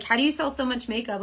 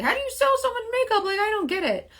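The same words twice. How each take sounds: First: Said in the usual way. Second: High-pitched imitation of baffled askers; squeaky-high mock bewilderment; puzzled customers. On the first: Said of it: "everybody says, like". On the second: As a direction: mimic bewildered people in a much higher voice. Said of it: "a lot of people ask me".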